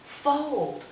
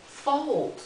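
First: Fold said high and falling; stress on fold. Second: Fold drawn out with a falling tune; stress on fold. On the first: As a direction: lift fold, then drop it. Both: Shown as a demonstration. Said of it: "So get it?".

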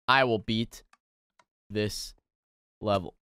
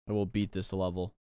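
First: Low, spaced-out determination; grimly measured, low and halting; word-by-word vow. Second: Quiet, low self-pep-talk; hushed, low resolve; low determined vow. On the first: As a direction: leave a pause between the words. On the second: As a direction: say it low and soft to yourself. Vowing to beat the level. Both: Real, not acted.

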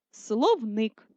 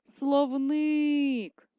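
First: Said in the usual way. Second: «Словник» with a long, held И at the end; наголос на И. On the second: Shown as a demonstration. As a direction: draw out the stressed second syllable of «Словник». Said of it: "Не забуваємо визначити наголос". («Словник» протяжно, з наголосом на И)

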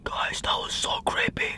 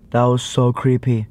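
First: Whispered confidingly to the viewers; creeped-out whisper. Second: Voiced, pitched well down; low creeped-out repeat. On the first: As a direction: drop right down to a hushed whisper. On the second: Repeats the whispered line voiced. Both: Real, not acted.

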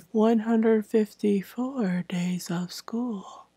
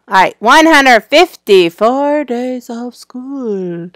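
First: Slow whispery robot monotone. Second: Said in the usual way. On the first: Shown as a demonstration. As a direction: drone it out like a robot. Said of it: "Now I sound like a robot". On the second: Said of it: "plain retake after robot".

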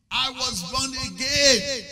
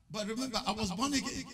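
First: Slow, loud, high proclamation; proclaimed loud. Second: Said in the usual way. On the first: Real, not acted. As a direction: cry it out to the congregation. Preacher repeats the line for emphasis.

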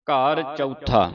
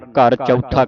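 First: ਘਰ ਚੌਥਾ read as house fourth; ਘਰ ਚੌਥਾ spoken as an ordinal, not the number four; correct pronunciation. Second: ਘਰ ਚੌਥਾ said as the ordinal fourth; teacher models ਘਰ ਚੌਥਾ for the student; correct pronunciation. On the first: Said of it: "ਘਰ ਚਾਰ ਨਹੀਂ ਪੜ੍ਹਨਾ". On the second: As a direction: repeat ਘਰ ਚੌਥਾ slowly and carefully. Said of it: "ਕਹਿਣਾ ਇਹਨੂੰ". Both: Shown as a demonstration.

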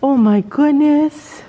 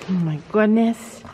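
First: Gushing. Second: Said in the usual way. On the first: Real, not acted. Vlogger gushes over the cat's cuteness. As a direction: melt over the cute cat.

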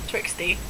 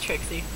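First: "Trixie" slipped into "Trix-tee", low and soft; mispronounced name. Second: Said in the usual way. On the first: Real, not acted. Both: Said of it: "No, just Trixie".

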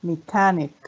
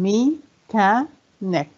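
First: Said in the usual way. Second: "Mechanic" very slowly as me, cha, nic; syllable by syllable. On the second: Shown as a demonstration. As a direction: leave gaps between the three parts of "Mechanic". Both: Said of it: "كم عدد المقاطع".

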